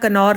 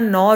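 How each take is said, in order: First: The word begins with a k sound. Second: The word begins with an n sound. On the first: "कनौर नहीं होता" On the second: "नौर होता है, जैसे नॉलेज होता है"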